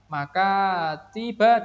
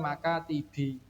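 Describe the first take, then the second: First: The word ends with a short 'a' vowel. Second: The word ends with a short 'i' vowel. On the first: The speaker calls it right. "tidak boleh dibaca" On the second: The speaker calls it wrong. "tidak boleh dibaca maka tibi"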